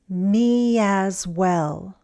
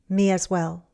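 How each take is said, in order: First: The phrase is said slowly. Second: The phrase is said faster. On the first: "first slowly" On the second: "and then faster"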